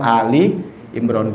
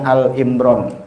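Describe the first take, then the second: First: An 'i' vowel is heard between Al and Imran. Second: No vowel is heard between Al and Imran. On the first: This means the family of Imran. The speaker calls it right. "padahal Ali Imran, keluarga Imran" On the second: This is the habitual everyday way of saying it. The speaker calls it wrong. "Kita udah kebiasaan ngomongnya Al Imran"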